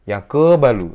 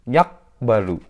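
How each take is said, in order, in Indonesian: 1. Huruf q memantul penuh seperti vokal. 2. Huruf q ditutup tanpa pantulan. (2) "Salah karena tidak dipantulkan"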